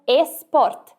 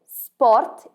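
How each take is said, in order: First: The word starts with an added e sound. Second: The word starts directly with the s sound. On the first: The speaker calls it wrong. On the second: The speaker calls it right.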